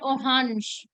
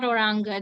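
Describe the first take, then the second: First: The word is pronounced in a French style. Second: The word is pronounced by German spelling rules. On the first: The speaker calls it right. "They call it orange, which is more of a French pronunciation" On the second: The speaker calls it wrong. "not oranga"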